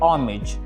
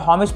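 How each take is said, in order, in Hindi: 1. शब्द की शुरुआत स्वर की आवाज़ से होती है। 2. शब्द की शुरुआत 'h' की आवाज़ से होती है। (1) "सही प्रोनाउंसिएशन होगी" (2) "पढ़ने की गलती मत कीजिएगा"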